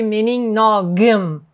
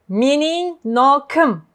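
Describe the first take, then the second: First: The consonant before the ending is g. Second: The consonant before the ending is k. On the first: The speaker calls it wrong. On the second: The speaker calls it right.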